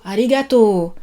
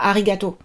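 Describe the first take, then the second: First: The final O vowel is held long. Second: The final O vowel is cut short. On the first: The speaker calls it right. "on allonge le O" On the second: The speaker calls it wrong. "Et pas"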